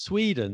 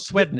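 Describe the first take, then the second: First: "Sweden" said as Swee-den, higher pitched; "Sweden" with first vowel as in sweet; long EE in Sweden. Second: "Sweden" said as Swedden, higher pitched; "Sweden" rhyming with leaden; short E in Sweden. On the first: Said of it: "it's Sweden". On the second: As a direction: give "Sweden" a short eh, as in bed. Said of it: "It's not Sweden". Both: Shown as a demonstration.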